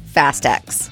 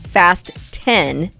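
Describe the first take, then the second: First: The last word sounds like the letter ex. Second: The last word sounds like the number ten. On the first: The speaker calls it wrong. "not Fast X" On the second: The speaker calls it right. "Fast X is pronounced Fast 10"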